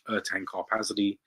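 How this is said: The name has an English pronunciation. "for those of you who pronounce it in English"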